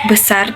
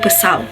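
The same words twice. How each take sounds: First: The word ends in an R sound. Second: The word ends in an L sound. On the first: This is the adult form. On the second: This is how a child says it.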